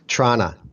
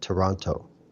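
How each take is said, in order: First: It is clipped to two syllables, the T dropped. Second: All three syllables are said, with a clear T.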